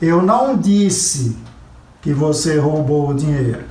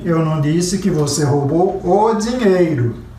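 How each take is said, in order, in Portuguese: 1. A ênfase está na palavra disse. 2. A ênfase está na palavra dinheiro. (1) "Eu insinuei, eu sugeri, eu dei a entender, mas eu não disse" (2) "Você roubou o relógio"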